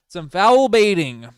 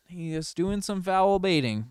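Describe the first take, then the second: First: Sudden loud, high call of foul baiting; loud callout. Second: Said in the usual way. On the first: Real, not acted. Streamer calling out the star's foul baiting, loud. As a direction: bark it out, indignant.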